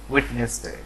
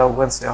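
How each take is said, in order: First: Wednesday as "wit-nes-de", with a t and full middle syllable; ওয়েডনেসডে in three syllables, t in the first; common mispronunciation. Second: Wednesday as "wens-de", the first d silent; ওয়েডনেসডে with silent d, "wens-de"; correct pronunciation. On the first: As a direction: say ওয়েডনেসডে the mistaken way, "wet-nes-day". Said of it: "বুধবারকে বলি হচ্ছে". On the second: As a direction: say ওয়েডনেসডে in two syllables, "wenz-day". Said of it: "কিন্তু সেটা ওয়েডনেসডে হবে". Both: Shown as a demonstration.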